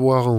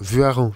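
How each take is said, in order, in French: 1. La première syllabe sonne comme « voir ». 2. La première syllabe sonne comme « vuar ». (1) "Pas Voiran" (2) "mais Vuaran, pas Voir"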